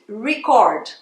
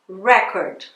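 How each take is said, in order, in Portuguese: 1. A sílaba tônica é a segunda. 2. A sílaba tônica é a primeira. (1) "Quer dizer, gravar" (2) "dependendo de onde você colocar a sílaba tônica"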